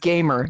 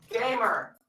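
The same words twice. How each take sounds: First: Said in the usual way. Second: Distant, softer, higher-pitched word; away from the mic. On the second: Shown as a demonstration. Joker contrasting two kinds of gamer, said away from the mic. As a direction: call it from back away from the microphone. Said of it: "Walked away from the mic as a joke".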